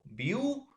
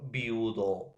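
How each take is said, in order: First: "viudo" repeated with the pitch rising high on the end. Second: Said in the usual way. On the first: Shown as a demonstration. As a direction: lift "viudo" sharply upward, like a question. ("viudo" repetido con la voz subiendo mucho al final) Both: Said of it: "por ejemplo, viudo".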